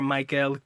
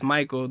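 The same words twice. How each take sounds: First: Michael said the Filipino way, extra emphasis on the end; Filipino pronunciation. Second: Said in the usual way. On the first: Shown as a demonstration. Explaining how Filipinos say his name, Michael with extra end stress. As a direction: say Michael as "my-KELL", stressing the last syllable. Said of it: "There's always an extra emphasis on the word". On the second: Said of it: "even though it's just Michael".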